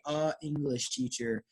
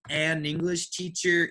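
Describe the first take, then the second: First: No n sound links the article to English. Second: An n sound links the article to English. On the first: The speaker calls it wrong. "it's very hard to say a English teacher" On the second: The speaker calls it right. "it's just easier to say. I can say it faster like that"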